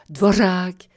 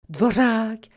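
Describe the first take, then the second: First: The r is a trill with a hiss. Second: The r is a trill with a hiss.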